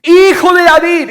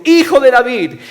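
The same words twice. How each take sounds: First: Very high, full-voiced cry; loud, soaring exclamation; exclaimed shout. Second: Loud, raised plea; crying out. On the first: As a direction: shout it out to someone far ahead. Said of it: "está en exclamación". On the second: Acted. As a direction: call out to be heard. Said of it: "gritando y diciendo".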